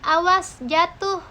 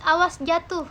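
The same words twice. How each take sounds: First: "awas jatuh" with the last syllable "tuh" drawn out long as a warning call; long final syllable warning. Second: Said in the usual way. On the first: Shown as a demonstration. Lecturer to students demonstrating a warning, "awas jatuh" with a long final syllable. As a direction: stretch the end of "awas jatuh" slowly to catch attention. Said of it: "ucapan panjang pada silaba terakhir bermaksud mencari perhatian".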